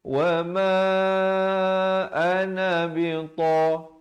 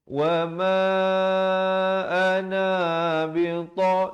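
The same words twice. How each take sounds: First: The vowel in 'na' is kept short. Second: The vowel in 'na' is drawn out long. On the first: The speaker calls it right. "Yang betulnya wa ma ana bita" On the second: The speaker calls it wrong. "na-nya jangan dibacakan dengan panjang. Jangan baca wa ma ana bita, itu tak betul"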